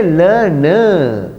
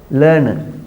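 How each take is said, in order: First: LEARNER drawn out, both syllables long and full; wrong pronunciation. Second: LEARNER with a short, weak final schwa; correct pronunciation. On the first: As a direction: stretch LEARNER into "ler-NERR" as a mistake. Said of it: "We don't say learner". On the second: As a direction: model LEARNER quickly, second vowel reduced. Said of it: "Short a sound is there". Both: Shown as a demonstration.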